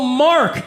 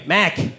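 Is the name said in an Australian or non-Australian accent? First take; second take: non-Australian; Australian. First: It is said in a non-Australian accent, with R. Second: It is said in an Australian accent, no R.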